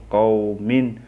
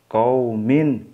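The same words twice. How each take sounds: The two takes are said the same way.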